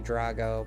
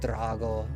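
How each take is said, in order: First: The R is said plainly, without a roll. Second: The R is rolled with a trill. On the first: "I know you can say Drago" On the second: "if you roll your R, it just sounds way cooler"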